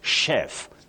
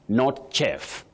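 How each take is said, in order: First: It begins with a sh sound. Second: It begins with a ch sound. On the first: The speaker calls it right. "that digraph C H takes the sound sh" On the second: The speaker calls it wrong.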